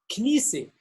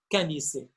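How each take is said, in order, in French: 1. Les deux premières consonnes se prononcent ensemble, sans voyelle. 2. Une voyelle est insérée entre les deux premières consonnes. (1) "il n'y ait pas de voyelle" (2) "il va dire canissé"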